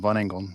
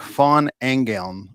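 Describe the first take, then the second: First: The surname is said with an English pronunciation. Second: The surname is said with a German pronunciation. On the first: This is how the family says it. "it's the way we say it" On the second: This is how a German speaker says it. "it was like Von Engeln or something like that"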